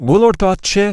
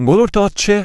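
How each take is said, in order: No difference in how they are said.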